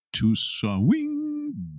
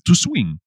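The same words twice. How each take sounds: First: Much higher, elongated take of swing; playfully drawn-out. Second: Said in the usual way. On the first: Shown as a demonstration. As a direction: SWING held long on a high swooping note. Teacher playfully stretches the word.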